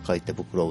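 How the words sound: The emphasis falls on the word 赤い. "赤いっていう言い方"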